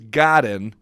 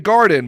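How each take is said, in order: First: The name does not sound like garden. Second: The name sounds like the word garden. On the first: The speaker calls it right. "but it's Troy Corey's Godin" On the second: The speaker calls it wrong. "people want to say Garden"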